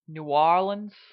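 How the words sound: It is run together with long, drawn-out vowels. It is how locals say the city's name. "someone from there calls it New Orleans. Uh, so they again kind of mush it all together and string it out in the vowels"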